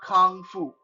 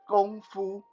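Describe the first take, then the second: First: The first word begins with a k sound. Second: The first word begins with a g sound. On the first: The speaker calls it wrong. "not not Kung Fu" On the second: The speaker calls it right. "the proper way to pronounce it is Gong Fu"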